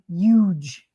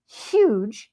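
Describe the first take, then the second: First: The word starts without an h sound. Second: The word starts with an h sound. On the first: This is how people from Jersey say it. "They say huge" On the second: This is how people elsewhere say it. "They don't say huge, even though it starts with an H"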